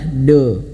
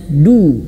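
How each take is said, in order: First: The vowel is said with unrounded lips. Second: The vowel is said with rounded lips. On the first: The speaker calls it wrong. "kurang memanyunkan" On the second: The speaker calls it right. "Harusnya du"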